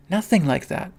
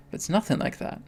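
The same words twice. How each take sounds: First: Said in the usual way. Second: Breathy whisper, with a lift on nothing. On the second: Real, not acted. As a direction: hush it like a secret. Repeating the reassurance, first hushed.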